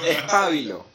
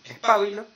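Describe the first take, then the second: First: "pábilo" insisted on loudly, stressed on PA; stress on first syllable. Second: "pabilo" as a loud, high question, stressed on BI; stress on middle syllable. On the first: Real, not acted. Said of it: "Si lleva acento en la A". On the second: Retold or imitated. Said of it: "ellos decían que es pabilo".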